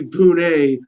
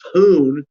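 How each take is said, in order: First: The name is said with an Indian pronunciation. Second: The name is said as English spelling suggests. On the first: The speaker calls it right. "in Indian pronunciation, it must be Pune" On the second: The speaker calls it wrong. "Americans will giggle when they hear"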